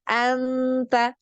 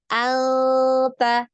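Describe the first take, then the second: First: The n is clear, tongue fully touching. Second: The n is a hidden nasal, not fully touching. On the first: The speaker calls it wrong. "anta ini anak tempel ya" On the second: The speaker calls it right. "jangan sampai ter, tertempel ya di makhrajnya"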